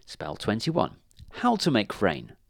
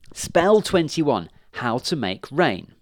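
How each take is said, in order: First: Said in the usual way. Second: Slow, high and loud announcement; excited reading. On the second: Acted. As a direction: read the title out with glee. Witch reads spell aloud eagerly.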